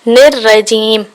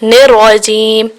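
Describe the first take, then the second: Both takes have the same delivery.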